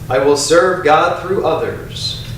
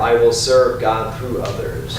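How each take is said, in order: First: It is said in a strong, loud voice. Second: It is said in a softer, quieter voice. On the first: "first in a strong voice out loud" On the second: "A little softer"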